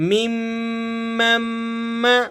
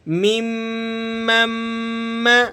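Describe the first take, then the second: Both takes have the same delivery.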